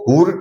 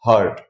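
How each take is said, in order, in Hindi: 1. स्वर एक गोलाकार 'oo' ध्वनि है। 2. स्वर एक केंद्रीय 'uh' ध्वनि है। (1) "इसको हुर्ट नहीं बोला है" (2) "यू को अ पढ़ेंगे"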